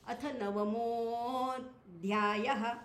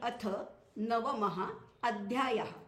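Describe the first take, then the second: First: The words merge, with a lengthened swinging mo. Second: Navamah and adhyayah are said as separate words. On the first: "मचा मोह झालाय आणि तो थोडा लांबायचा" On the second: "नवम इथे शब्द असा आहे"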